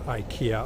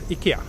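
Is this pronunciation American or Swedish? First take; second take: American; Swedish. First: The name is said with American English pronunciation. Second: The name is said with Swedish pronunciation. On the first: "whenever I hear Americans pronouncing IKEA, I just, uh, it makes me feel very uncomfortable" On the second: "IKEA is how we pronounce it in Swedish"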